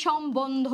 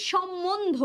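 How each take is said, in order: First: সম্বন্ধ as shom-bondho, the b clearly sounded; spelled-out pronunciation. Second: Said in the usual way. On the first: Shown as a demonstration. Teacher shows the bo-fola is heard, spelled-out pronunciation. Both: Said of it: "এভাবে বলতেছি".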